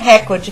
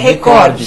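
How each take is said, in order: First: The word carries English-style stress. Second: The word carries Portuguese-style stress. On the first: This is the borrowed foreign way of saying it. The speaker calls it wrong. "não é recorde" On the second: This is the native Brazilian way of saying it. The speaker calls it right. "estamos no Brasil, ... é, recorde"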